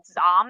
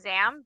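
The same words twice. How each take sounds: First: The name is said in a Middle Eastern way. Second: The name is said in a Star Wars style. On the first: "in terms of the Middle East, it would have been" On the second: "that's a very Star Wars way of pronouncing things"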